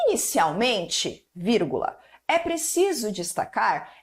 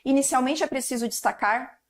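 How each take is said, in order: First: There is a pause after the first word. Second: There is no pause after the first word. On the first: The speaker calls it right. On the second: The speaker calls it wrong.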